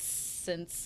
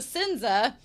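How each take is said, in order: First: The name is one syllable with no ending vowel. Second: The name ends with an added vowel syllable. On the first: The speaker calls it wrong. "Sorry if I've been mispronouncing it this entire time" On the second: The speaker calls it right. "that since is pronounced Sinza"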